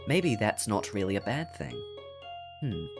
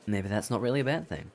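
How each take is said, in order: First: The words are articulated crisply and clearly. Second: The words are slurred with unclear articulation.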